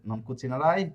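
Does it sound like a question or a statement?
question. It is said with a questioning intonation. The speaker asks whether you will not cook. "প্রশ্নবোধক করেন"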